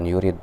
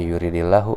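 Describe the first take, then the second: First: The word ends on a bare d consonant. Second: The d is followed by an i vowel. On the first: The speaker calls it wrong. "bukan yurid" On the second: The speaker calls it right. "dibaca uh, kasroh ya, untuk meringankan bacaan"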